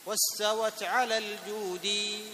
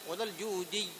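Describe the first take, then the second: First: الجودي with the doubled ya, no madd, said slowly; correct shadda. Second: الجودي with the final ya stretched like a madd; wrong lengthened madd. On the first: Teacher asks students to compare two readings of الجودي. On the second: Teacher shows the wrong version of الجودي. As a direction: draw out the ي of الجودي. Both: Shown as a demonstration. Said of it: "هنا إيش؟".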